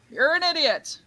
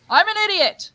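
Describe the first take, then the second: First: Echo. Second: Loud, high mock shout; calling for an echo. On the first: Acted. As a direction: bounce it back high, without shouting. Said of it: "Repeats that". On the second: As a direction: call it out high into the distance. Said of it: "the Echo scene".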